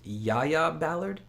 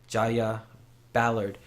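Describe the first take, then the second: First: The name begins with a soft Y sound. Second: The name begins with a hard J sound.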